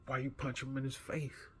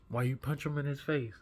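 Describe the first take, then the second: First: Confronting question. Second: Higher and louder, pressing the bully; confronting the bully, rising anger; louder angry demand. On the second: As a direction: demand it again with heat. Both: Retold or imitated. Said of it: "I'm furious".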